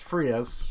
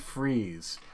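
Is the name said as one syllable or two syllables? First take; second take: two; one. First: The name is said as two syllables. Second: The name is said as one syllable. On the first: The speaker calls it wrong. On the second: The speaker calls it right.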